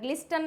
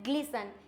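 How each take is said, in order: First: The T sound is pronounced in the middle. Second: The T sound is left out entirely. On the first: The speaker calls it wrong. "ग्लिस्टन नहीं होता है" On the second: The speaker calls it right. "It's ग्लिसन"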